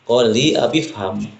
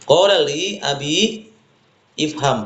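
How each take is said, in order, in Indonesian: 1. Abi langsung menyambung ke fham tanpa vokal. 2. Ifham memiliki vokal sendiri di awal. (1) "Kalau diwasalkan" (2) "Tulis asli sebenarnya begitu"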